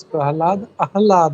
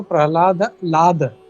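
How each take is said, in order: First: प्रहलाद followed by आह्लाद with its opening "aah" sounded; corrected pronunciation. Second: प्रहलाद with the ending picked out as a separate लाद; mistaken word split. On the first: Teacher correcting devotees, प्रहलाद shown to contain a full आह्लाद. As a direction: give आह्लाद its full first vowel, not just लाद. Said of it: "actually it is not लाद, it is". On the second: Teacher showing how people say it, प्रहलाद broken off as लाद. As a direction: say प्रहलाद, then isolate लाद. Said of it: "actually it is not लाद". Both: Shown as a demonstration.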